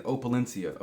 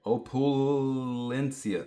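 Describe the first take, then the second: First: Said in the usual way. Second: "Opulencia" sounded out slowly, syllable by syllable; slow careful first try. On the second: Real, not acted. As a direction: drag out "Opulencia" as if reading it off the band. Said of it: "Opla Cin-, Opla".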